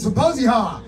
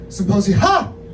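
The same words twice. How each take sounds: First: The final syllable is said flat and plain. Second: The final syllable is said as a loud exclamation. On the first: The speaker calls it wrong. "I'm actually I'm not saying it right" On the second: The speaker calls it right. "hyphen Ha exclamation point"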